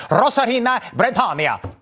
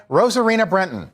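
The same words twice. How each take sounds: First: Rosarena Bretonia with rolled, overdone Spanish vowels, mocking; mock Spanish accent. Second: Said in the usual way. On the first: Host mocking anchors who fake Spanish accents, mock Spanish accent. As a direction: parody a newscaster's showy Spanish accent. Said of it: "pronounce it like we're living in Mexico". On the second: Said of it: "Just say Rosarena Brenton".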